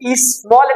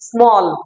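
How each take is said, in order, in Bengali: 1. s ধ্বনির আগে একটি অতিরিক্ত স্বরধ্বনি আসে। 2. শব্দটি সরাসরি s ধ্বনি দিয়ে শুরু হয়। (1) "এটা অরিজিনাল বাঙালি।" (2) "আপনাকে ওয়ার্ডটা ইংলিশের স্টাইলেই বলতে হবে"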